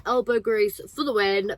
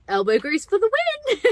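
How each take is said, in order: First: Said in the usual way. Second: Excited catchphrase. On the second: Acted. Catchphrase repeated, hammed up.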